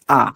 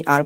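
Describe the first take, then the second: First: "আ" as a long ah with silent r; British-style open "আ". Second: "আর" with the final r pronounced; sounded R. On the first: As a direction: leave the r off "আ". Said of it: "ব্রিটিশে পড়ে আ". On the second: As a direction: roll out the r ending "আর". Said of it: "আর র উচ্চারণ করে না". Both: Shown as a demonstration.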